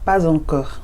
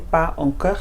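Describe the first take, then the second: First: The words are joined by a z sound. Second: The words are separate, with no z sound. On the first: The speaker calls it right. "So you see there's a liaison. ... it's pas encore" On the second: The speaker calls it wrong. "You wouldn't say pas encore"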